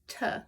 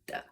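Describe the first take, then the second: First: The T is made with the tongue behind the teeth. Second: The T is made with the tongue between the teeth. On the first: "instead of t" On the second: "a T where your tongue is a little bit like out, kind of maybe between your teeth"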